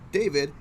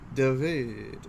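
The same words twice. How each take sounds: First: The name is pronounced as in English. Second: The name is pronounced as in Polish. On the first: "instead of saying David" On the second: "it's David"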